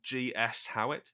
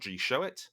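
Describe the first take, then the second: First: The S is said as a separate letter. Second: The S is joined into the word 'show'. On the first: The speaker calls it right. "That's G S H O W I T T" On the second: The speaker calls it wrong. "Not G Showit, ... it's fun to pronounce it that way, but it's not"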